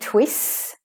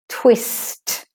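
First: The final T sound is left off. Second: The final T sound is clearly pronounced. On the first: The speaker calls it wrong. "I don't want to hear twists" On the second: The speaker calls it right. "You have to put the T in"

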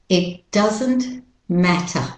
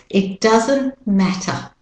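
The two takes are said the same way.

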